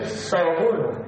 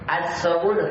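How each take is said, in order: First: It begins directly with a plain s sound. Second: It begins with a vowel before a doubled s. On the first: The article is not read at all. The speaker calls it wrong. "Kalau tidak dibacaannya berarti sabunu" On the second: The article is read but merged into the next sound. The speaker calls it right. "dibaca alifnya, cuma ditenggelamkan"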